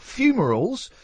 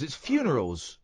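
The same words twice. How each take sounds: First: "funerals" mispronounced as FYOO-muh-rulz; "funerals" mimicked with an M, higher-pitched. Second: "funerals" said clearly with an N in the middle; "funerals" with N, not M, said as a correction. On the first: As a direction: put an M in place of the N in "funerals". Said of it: "fum-, we'll call them that". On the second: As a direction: correct it to "funerals", FYOO-nuh-rulz. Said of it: "there's no M in funerals". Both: Shown as a demonstration.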